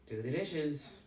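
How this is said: It is said in a harsh tone.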